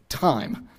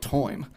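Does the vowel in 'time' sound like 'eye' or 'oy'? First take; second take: eye; oy. First: The vowel sounds like 'eye'. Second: The vowel sounds like 'oy'. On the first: This is the most recent standard pronunciation. "the received pronunciation of time with an I sound" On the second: This preserves an older colonial-era pronunciation. "some regions still pronounce this more like toim"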